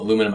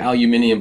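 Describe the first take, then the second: First: It is said the American way, four syllables. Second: It is said the British way, five syllables. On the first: "that's a little dialect thing" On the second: "if you're English, ... you can call it aluminium"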